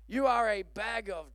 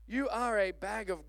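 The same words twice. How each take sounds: The two takes are said the same way.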